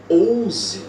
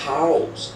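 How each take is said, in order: First: The first sound is not a soft h. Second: The first sound is a soft breathy h. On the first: The speaker calls it wrong. "ou ouse" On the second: The speaker calls it right. "Tem o som de R fraco"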